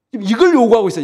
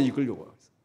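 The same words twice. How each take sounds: First: Said in the usual way. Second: Much softer repeat of 이걸 요구하고 있어요; hushed echo. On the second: Real, not acted. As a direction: drop to a near whisper on the echo. (이걸 요구하고 있어요를 작게 되뇌기)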